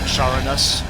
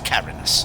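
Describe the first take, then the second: First: The name begins with a soft CH sound. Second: The name begins with a hard K sound. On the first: "I sort of want to say Charanus" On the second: "the C H with the K pronunciation sounds a little cooler"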